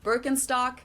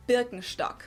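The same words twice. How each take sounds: First: Birkenstock as "BURR-ken-stock"; English pronunciation. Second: Birkenstock as "BEER-ken-shtock"; German pronunciation. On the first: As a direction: say Birkenstock like an American. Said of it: "English speakers usually say". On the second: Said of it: "we say". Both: Shown as a demonstration.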